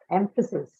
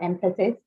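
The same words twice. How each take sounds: First: The vowel after the middle syllable is a schwa. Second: The vowel after the middle syllable is full. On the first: The speaker calls it right. "After fa, the vowel sound which follows is the shva" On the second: The speaker calls it wrong. "It's not emphasis"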